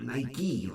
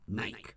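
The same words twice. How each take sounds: First: It is said the American way. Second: It is said the British way. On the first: "Not Nike like we do" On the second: "Just Nike"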